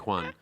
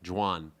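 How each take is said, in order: First: The name is said with a Spanish pronunciation. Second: The name is said with an English pronunciation. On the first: "or do you want me to say Juan?" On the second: "your name in English is Juan"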